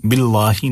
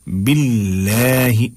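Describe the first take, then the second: First: "बिल्लाही" with heavy dark l and back aa; thick lam. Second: Slow "बिल्लाही" with light l and fronted long vowel; thin lam. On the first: Teacher showing the mistake, "बिल्लाही" with heavy lam. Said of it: "नहीं पढ़ना है". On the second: Teacher showing the right reading, "बिल्लाही" thin and drawn out. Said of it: "बिल्कुल बारीक करके पढ़ना है". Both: Shown as a demonstration.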